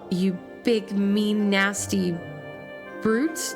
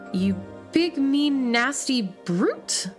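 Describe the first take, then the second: First: Brute gets no extra stress. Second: Brute is said with strong stress.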